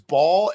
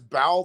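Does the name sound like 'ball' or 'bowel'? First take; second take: ball; bowel. First: It is said as one syllable, like 'ball'. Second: It is said as two syllables, like 'bowel'. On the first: This is the form most people know. The speaker calls it right. "most people know it as" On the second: People will think the speaker is crazy. The speaker calls it wrong. "if you try pronouncing it as bowel, they're going to think you are a fucking crazy person"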